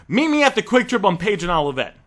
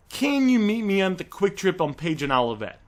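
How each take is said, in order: First: Firm demanding order. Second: A gentle, easygoing question that leaves room for a no; soft phrase. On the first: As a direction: tell him where to meet, in full control. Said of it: "Feel the difference". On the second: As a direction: ask lightly, with no pressure at all. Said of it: "it's called a soft phrase". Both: Shown as a demonstration.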